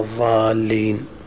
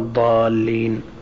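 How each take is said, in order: First: The emphatic consonant sounds like an interdental za. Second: The emphatic consonant sounds like a lateral dad. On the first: "إبدال الظاء من الضاد، يعني حينما نقرأ" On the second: "بدلا من"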